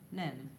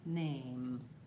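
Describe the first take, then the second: First: The vowel is a single pure sound. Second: The vowel glides from A toward I. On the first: The speaker calls it wrong. "it might sound like nem" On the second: The speaker calls it right. "rather than name"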